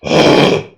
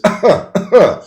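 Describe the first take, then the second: First: Loud, rough cough without voice; abnormal cough. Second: Loud, high, voiced cough; normal cough. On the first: Instructor showing students an unhealthy cough, abnormal cough. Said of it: "abnormal is". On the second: Instructor showing students a healthy cough, normal cough. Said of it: "And normal is". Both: Shown as a demonstration.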